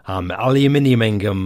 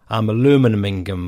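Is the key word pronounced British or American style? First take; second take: British; American. First: Aluminium is pronounced the British way. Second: Aluminium is pronounced the American way.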